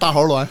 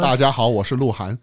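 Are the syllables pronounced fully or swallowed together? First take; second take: swallowed; full. First: The syllables are swallowed and merged together. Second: Every syllable is pronounced clearly and fully.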